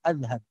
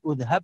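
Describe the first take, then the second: First: The word begins with an a vowel. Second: The word begins with an u vowel. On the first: "atau adhab" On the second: "bukan udhab"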